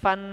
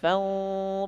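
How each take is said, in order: First: The syllable ends in a full n sound. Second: The syllable ends in a nasal glide. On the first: The speaker calls it wrong. "bukan fan" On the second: The speaker calls it right. "Fau bukan fan"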